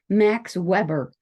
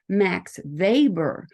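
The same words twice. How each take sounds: First: Weber begins with an English W sound. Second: Weber begins with a V sound. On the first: The speaker is a newcomer to the field. The speaker calls it wrong. "they had mispronounced that sociologist's name" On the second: The speaker is an expert in the field. The speaker calls it right. "The W is actually a V in that case"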